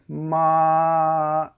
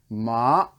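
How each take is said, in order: First: The pitch stays high and level. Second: The pitch rises from low to high. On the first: "that's the first tone. Ma, and it's just cruising, steady" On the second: "that's the second tone, the bike ramp"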